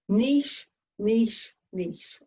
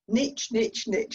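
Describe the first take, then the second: First: It is said in a British accent. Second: It is said in an American accent.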